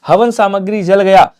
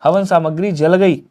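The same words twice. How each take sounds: First: "जल गया" slow and loud, falling at the end; wrong version shown. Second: "जल गई" slow and settled, falling at the end; corrected version. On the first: Teacher reads class the gender error, "जल गया" slow and loud. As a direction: read out "जल गया" slowly and loudly as the faulty form. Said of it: "नहीं होगा". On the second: Teacher models the right gender for class, "जल गई" slow and settled. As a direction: give "जल गई" slowly as the answer, without pushing volume. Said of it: "ये बोलोगे". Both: Shown as a demonstration.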